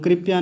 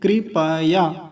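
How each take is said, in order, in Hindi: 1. p आधा है, उसके बाद कोई स्वर नहीं। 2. p पूरा है, उसके बाद एक स्वर है। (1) "कृपया नहीं" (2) "देखिए प पूरा है"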